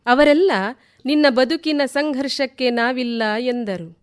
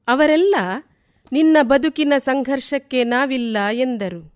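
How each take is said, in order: Both takes have the same delivery.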